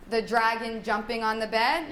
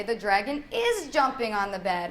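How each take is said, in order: First: Said in the usual way. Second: IS punched in "dragon is jumping"; stress on IS. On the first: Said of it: "So instead of". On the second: Shown as a demonstration. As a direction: highlight IS as the missing word. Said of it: "use your tone and your intonation to stress the".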